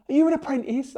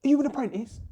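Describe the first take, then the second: First: Lightly voiced Bob, pitched higher and louder; a rough take on Bob the judge; Bob impression. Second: Higher, louder mock Bob asking; crappy Bob impression. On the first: Telling the story, mimics Bob asking if he's an apprentice, higher. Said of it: "crappy impression of Bob". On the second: Retelling, mimics Bob doubting he's qualified, high and loud. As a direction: ham up Bob questioning the young bricklayer. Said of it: "I'm gonna do a crappy impression of Bob now".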